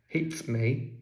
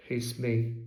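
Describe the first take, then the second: No difference in how they are said.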